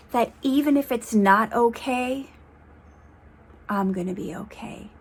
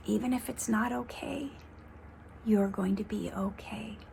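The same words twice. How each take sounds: First: Said in the usual way. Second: Whispered, much softer reassurance. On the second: Real, not acted. She whispers the reassurance to her viewers, soft and tender. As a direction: breathe it to them as a quiet comfort.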